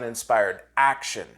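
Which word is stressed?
action. The stress is on the word action.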